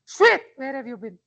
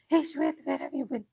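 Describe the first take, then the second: First: It is said loudly, with authority. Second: It is said quietly, in a sneaky way.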